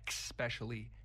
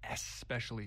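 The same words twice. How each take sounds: First: The word begins with an 'ex' sound. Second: The word begins with an 'es' sound. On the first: The speaker calls it wrong. "It's not especially" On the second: The speaker calls it right. "Get the X out of there"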